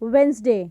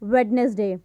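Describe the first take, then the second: First: The first 'd' sound is left out. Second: The first 'd' sound is clearly pronounced. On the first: The speaker calls it right. "Correct pronunciation होगा वो होगा वेंसडे" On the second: The speaker calls it wrong. "Not वेडनेसडे"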